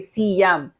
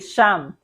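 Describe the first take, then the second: First: It is said as two separate syllables, si-yam. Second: It is said as one syllable, starting with sh. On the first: The speaker calls it wrong. "do not syllabicate when you pronounce" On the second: The speaker calls it right. "we pronounce S I Y as sh"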